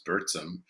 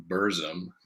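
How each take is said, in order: First: "[name]" said as BURT-sum. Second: "[name]" said as BUR-zum, American style; American pronunciation. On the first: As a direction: say "[name]" with a ts in the middle. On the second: Musician showing how Americans say it, "[name]" as BUR-zum. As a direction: say "[name]" with a buzzed z, no t. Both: Shown as a demonstration. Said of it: "as we Americans pronounce it".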